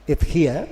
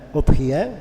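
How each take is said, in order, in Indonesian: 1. Vokal pertama adalah i. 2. Vokal pertama adalah u. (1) "bisa di kasrah" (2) "Bisa dibaca dhamma"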